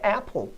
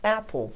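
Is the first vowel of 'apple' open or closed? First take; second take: open; open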